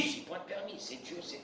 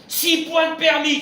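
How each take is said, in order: First: Breathy whisper, resigned; whispered acceptance. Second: Loud, high mock indignation; exclaimed penalty. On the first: Acted. Rabbi voicing the calm believer, resigned whisper. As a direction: whisper it, shrugging it off. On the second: Rabbi mocking lost licence points, loud high indignant cry.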